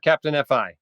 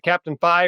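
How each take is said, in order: First: FI is spelled out letter by letter. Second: FI is said as a single word. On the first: "or Captain F I?" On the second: "Do you pronounce it Captain Phi"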